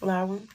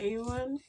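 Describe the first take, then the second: First: The name starts with an L sound. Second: The name starts with a vowel sound. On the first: The speaker calls it right. "It's an L" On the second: The speaker calls it wrong. "Am I saying it right?"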